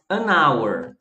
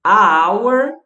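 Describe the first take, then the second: First: Settled alternative; right option. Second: "A hour" said loud with a questioning rise; quizzing tone on the wrong article; wrong option. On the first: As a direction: offer "an hour" calmly as the second choice. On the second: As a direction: offer "A hour" as a doubtful choice. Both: Shown as a demonstration. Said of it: "Aí eu digo o quê?".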